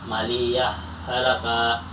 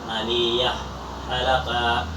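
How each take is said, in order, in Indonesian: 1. Huruf h terakhir menyatu ke dalam halaka. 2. Huruf h terakhir dibaca terpisah sebelum halaka. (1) "dan boleh dibaca idgham" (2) "boleh dibaca idghar atau sakta"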